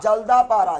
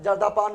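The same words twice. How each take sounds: First: जल्दा पारा ending in a clear "paara"; correct park name. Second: जर्दा पान ending in "paan" instead of "paara"; wrong park name. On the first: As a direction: say जल्दा पारा with a final "raa", not "paan". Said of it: "जल्दा पान नहीं बोलना". (जल्दा पारा, आख़िर में साफ़ "रा" बोलकर) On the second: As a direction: garble the name into जर्दा पान, like the chewing tobacco. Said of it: "जर्दा पान नहीं बोलना". (जर्दा पान, "पारा" की जगह ग़लत "पान") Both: Shown as a demonstration.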